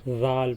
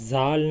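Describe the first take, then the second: First: The first sound is a soft, th-like z. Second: The first sound is a hissing, whistling z. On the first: The speaker calls it right. "जीभ इसमें थोड़ी सी बाहर निकलेगी और इसमें भी सीटी की आवाज़ नहीं होगी" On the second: The speaker calls it wrong. "जैसे जाल नहीं पढ़ना"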